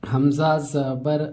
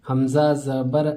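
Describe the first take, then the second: The two takes are said the same way.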